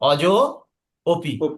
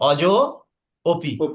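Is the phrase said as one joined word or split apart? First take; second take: split; split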